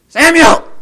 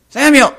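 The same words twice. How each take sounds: First: Samuel! yelled even higher and louder; louder summoning shout. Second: Samuel! called out very loud and high; summoning shout. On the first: The summoner calling Samuel! a second time, even louder. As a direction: yell Samuel! once more with full force. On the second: A voice from earth calling Samuel! out of paradise, very loud. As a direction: yell Samuel! across the heavens. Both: Acted.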